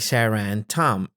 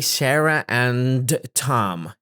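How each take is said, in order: First: The d in 'and' is dropped, flowing smoothly. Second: The d in 'and' is fully released, with a stop. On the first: The speaker calls it right. "I simply say Sarah and Tom. It's fluidy. It's smooth" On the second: The speaker calls it wrong. "I do not say"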